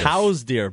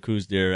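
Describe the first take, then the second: First: The name is said with an 'ow' vowel. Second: The name is said with an 'oo' vowel. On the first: "The correct pronunciation apparently ... Is cows" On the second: "everyone calls it a coos deer"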